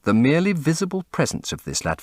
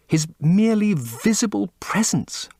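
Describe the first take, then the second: First: Said in the usual way. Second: A reverent whisper; hushed whisper. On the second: Acted. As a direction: breathe it out in a whisper. Basil repeats the phrase, hushed.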